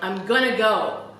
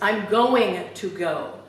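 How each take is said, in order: First: Going to is squeezed into gonna. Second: Going to is said fully with each sound. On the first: The speaker calls it wrong. "common enunciation problems like" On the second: The speaker calls it right. "Say the G's at the end of ing words"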